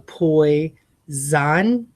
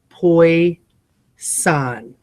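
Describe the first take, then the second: First: The middle consonant is a z sound. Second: The middle consonant is an s sound. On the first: "in the guide, it's saying go poi, zan" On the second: "So enunciate poi, san"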